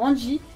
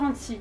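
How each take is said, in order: First: The middle consonant is a J sound. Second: The middle consonant is an S sound. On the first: The speaker calls it right. "la version originale comprend un J" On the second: The speaker calls it wrong. "Je prononce son prénom avec un S"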